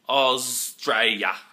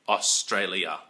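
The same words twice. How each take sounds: First: The word is pronounced with reduced syllables. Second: The word is pronounced fully with every syllable. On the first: This is how locals usually say it. The speaker calls it right. "It's really just" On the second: This is not how locals say it. The speaker calls it wrong. "that's really not how we say it"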